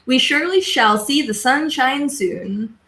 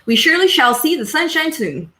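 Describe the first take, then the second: First: It is said at a slower, normal pace. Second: It is said quickly.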